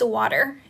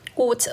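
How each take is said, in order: First: It is said in an American accent. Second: It is said in a British accent. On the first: "for American accent, it's water" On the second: "for British pronunciation should be water"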